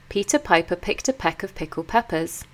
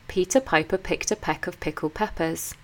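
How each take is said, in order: No difference in how they are said.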